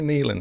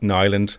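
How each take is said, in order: First: The first syllable sounds like 'nee'. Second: The first syllable sounds like 'nigh'. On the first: The speaker calls it wrong. "the M C as I walked out said" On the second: The speaker calls it right. "so it's Nyland. I think the the I is a Y"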